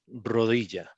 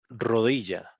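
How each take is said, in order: No difference in how they are said.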